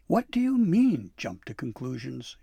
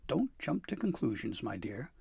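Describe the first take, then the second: First: Snapping. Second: Consoling. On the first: Dabbledy forgetting she addresses Santa, snapping. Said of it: "she snapped". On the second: Santa calming Dabbledy about ruined Christmas, consoling. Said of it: "Santa consoled". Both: A narrator's reading.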